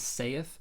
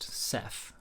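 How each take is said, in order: First: The word does not rhyme with 'said'. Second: The word rhymes with 'said', ending in th. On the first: The speaker calls it wrong. "most people pronounce that word" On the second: The speaker calls it right. "just like the word said, but with a T H instead of a D"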